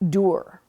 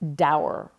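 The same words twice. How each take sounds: First: The vowel sounds like the one in tour. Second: The vowel sounds like the one in sour. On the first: The speaker calls it right. "like rhyming with tour" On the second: The speaker calls it wrong. "not dour, rhyming with sour"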